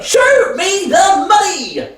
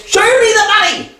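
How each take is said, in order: First: Drawn-out, shouted demand; slow demand. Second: Higher, fast, insistent demand; pushy demand. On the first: Son to father, losing patience, a slow shouted demand. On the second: Son to father, insisting on the money, pushy and quick. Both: Acted.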